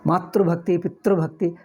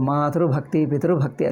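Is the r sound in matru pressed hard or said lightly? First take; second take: hard; light. First: The r sound is pressed hard like a cluster. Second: The r sound is light, like a vowel. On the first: The speaker calls it wrong. "ಅದು ಒತ್ತಿ ಹೇಳಬಾರ್ದು" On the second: The speaker calls it right. "ಅಷ್ಟೇ"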